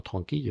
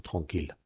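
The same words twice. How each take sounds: First: TRANQUILLE ending in "kee-yuh"; wrong Y-glide TRANQUILLE. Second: TRANQUILLE ending in a firm L, "tron-keel". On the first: Teacher showing the mistake to avoid, TRANQUILLE said as "tron-kee-yuh". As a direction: say TRANQUILLE with a Y sound for the double L. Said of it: "No decimos tranquille". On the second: Teacher correcting the class, TRANQUILLE said as "tron-keel". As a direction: say TRANQUILLE with a sounded final L, no Y glide. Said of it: "decimos tranquille". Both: Shown as a demonstration.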